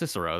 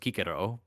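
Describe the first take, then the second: First: The name begins with an s sound. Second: The name begins with a k sound. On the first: This is the traditional taught pronunciation. The speaker calls it wrong. "That's totally wrong" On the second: This is how the name was originally pronounced. The speaker calls it right. "His name was Kikero"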